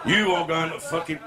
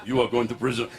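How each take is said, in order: First: Slipping into a sergeant-major voice; sergeant major slip. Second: Put-on low Arab-accented threat. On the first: Acted. Joke-teller gives Arab the wrong voice, sergeant major. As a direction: start the threat like a drill sergeant. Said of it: "He was a sergeant major then". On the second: Arab threatens the driver, low Arab accent. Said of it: "oh, he said".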